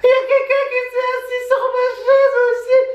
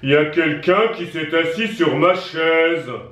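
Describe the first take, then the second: First: It is shouted loudly. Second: It is said in a big deep voice.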